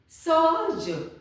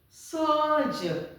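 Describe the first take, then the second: No difference in how they are said.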